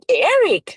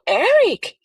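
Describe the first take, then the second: First: Said in the usual way. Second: High, disbelieving repeat of Eric; stunned echo. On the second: Retold or imitated. Father echoing the detective, stunned and disbelieving. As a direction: say the name like you can't believe it.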